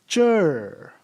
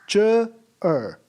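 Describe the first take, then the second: First: The two parts merge into a single syllable. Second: The two parts are said as separate syllables. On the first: The speaker calls it right. "We pronounce it in a combined form" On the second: The speaker calls it wrong. "We do not pronounce it as ch er"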